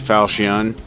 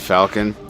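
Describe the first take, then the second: First: The middle sound is a soft CH. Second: The middle sound is a hard K. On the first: "Some say Falchion" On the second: "I pronounce the ch as a K"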